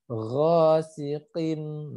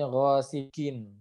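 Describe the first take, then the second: First: Ghasiqin chanted very slowly with a back-of-throat q; true deep qaf. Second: Ghasiqin with the q slipped to a front k; wrong plain k. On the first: Teacher corrects the k slip, deep drawn-out qaf. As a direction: stretch Ghasiqin, placing the q far back. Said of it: "ini adalah huruf qaf". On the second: Teacher shows students the strayed articulation, plain k. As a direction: say the q of ghasiqin as an ordinary k. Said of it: "dia bakal nyasar ke huruf K". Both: Shown as a demonstration.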